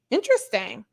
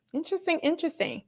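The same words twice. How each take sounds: First: Said in the usual way. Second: Quick, higher and hushed, teasing "Interesting, interesting"; mock intrigue. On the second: Real, not acted. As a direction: say "interesting" twice like a sly conspiracy theorist. Musing on Chris Evans news.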